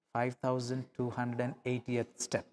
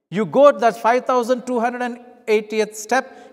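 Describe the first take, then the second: First: Much softer, lower, peaceful count; calm. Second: Louder and higher, counting off the last step in resentment; angry. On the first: Second miler calmly reaching the final step, soft and peaceful. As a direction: let the last step pass in peace. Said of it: "gentle calmness of spirit". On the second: First miler finishing the forced mile full of anger, loud and raised. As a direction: spit out the final step. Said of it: "so much of anger and frustration". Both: Acted.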